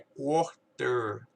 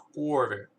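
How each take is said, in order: First: The t sound is clearly pronounced. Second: The t sound is softened, almost dropped.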